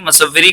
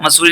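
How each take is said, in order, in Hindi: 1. बीच में 'savva' है, दोहरा v है। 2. बीच में लंबा 'soo' है, इसमें v नहीं है। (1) "मसव्वरी होगा यहाँ पर" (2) "मसूरी नहीं"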